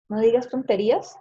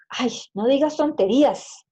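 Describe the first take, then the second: First: Said in the usual way. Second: "Ay, no digas tonterías" exclaimed higher and louder, "Ay" stretched; exclamation. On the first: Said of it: "no estoy preguntando nada". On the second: Shown as a demonstration. Teacher demonstrating an exclamation to the class, higher and louder. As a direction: scold it as an exasperated exclamation. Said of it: "simplemente es una exclamación".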